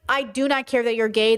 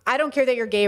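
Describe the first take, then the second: First: It sounds sincerely accepting and relaxed. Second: It sounds curt and dismissive. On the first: "That's not even a factor" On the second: The topic is unwelcome. "Don't talk to me about it"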